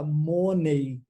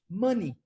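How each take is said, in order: First: The final syllable ends in an 'ay' sound. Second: The final syllable ends in an 'ee' sound. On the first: The speaker calls it wrong. "eu vejo que no Brasil fala isso" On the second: The speaker calls it right. "a forma correta de falar dinheiro em inglês é money"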